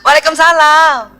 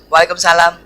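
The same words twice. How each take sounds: First: It is said in a sweet, pampered, coaxing voice. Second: It is said in a firm, matter-of-fact voice. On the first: The wife sounds affectionate and dependent on her husband. The speaker calls it right. "Sekarang ... istrinya manja" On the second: The wife sounds independent and distant, like a stranger. The speaker calls it wrong. "Dulu ... terlalu mandiri ... Itu salah banget saya"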